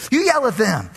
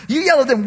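First: Said in the usual way. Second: Higher, louder smug push; louder insistent repeat. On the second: Pretend. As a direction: press it harder the second time. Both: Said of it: "congregation talks back to pastor".

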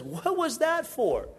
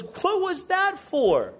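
First: Higher, slow, bewildered question; a mild hurt what-was-that-for; puzzled Chinese guy. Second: Much higher, slow, stunned question; shocked indignant squeal; outraged what-was-that-for. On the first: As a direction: ask why you were hit, genuinely baffled. Chinese guy punched, asks why. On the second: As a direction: demand why you got punched. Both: Acted.

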